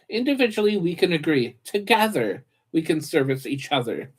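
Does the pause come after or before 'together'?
before. The break comes before the word together. Agreeing is done separately, serving jointly. The speaker calls it right. "I completely read that in a different"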